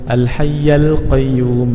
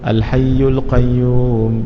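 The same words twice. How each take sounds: First: The vowel after 'hayy' is an 'a'. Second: The vowel after 'hayy' is a 'u'. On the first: "Bacaan pertama ... Fathah baris atas" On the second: "Yang biasa kita baca"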